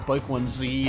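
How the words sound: The letter is said the American way, zee.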